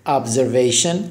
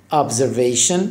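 No difference in how they are said.

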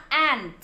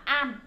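First: "ant" with a clearly released t; final t sounded. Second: "an" with the final t swallowed; dropped final t. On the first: Teacher correcting the word for ant, "ant" with t intact. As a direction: finish "ant" on an audible t. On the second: Teacher showing kids a misread ant, "an" without its t. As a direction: say "an" open-ended, no t at the end. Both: Shown as a demonstration. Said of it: "Cái âm t là không bị nuốt".

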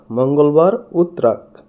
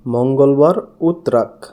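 No difference in how they are said.

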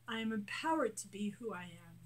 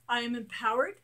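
First: Said in the usual way. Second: Bold affirmation. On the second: Shown as a demonstration. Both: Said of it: "affirmations growing softer".

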